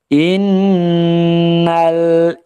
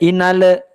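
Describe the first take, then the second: First: The L is short and clean, without bounce. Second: The L is released with an extra bounce. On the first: The speaker calls it right. "lamnya harus jelas. Jangan sampai qalqalah" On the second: The speaker calls it wrong. "Jangan sampai inale"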